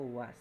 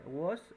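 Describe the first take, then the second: First: "was" voiced with an open a; "was" pronunciation. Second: "was" voiced with a rounded o, "wos"; "wos" pronunciation. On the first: Teacher showing two options, "was" said with open a. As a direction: pronounce "was" with a as in "ah". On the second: Teacher showing two options, "was" said as "wos". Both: Shown as a demonstration. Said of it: "Se puede pronunciar was o was".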